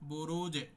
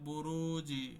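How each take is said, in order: First: The final consonant ends with a quick echoing bounce. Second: The final consonant is followed by an 'i' vowel. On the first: The speaker calls it right. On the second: The speaker calls it wrong.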